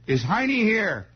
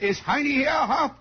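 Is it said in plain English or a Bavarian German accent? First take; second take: plain English; Bavarian German. First: It is said in plain, regular American English. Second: It is said in a heavy Bavarian German accent.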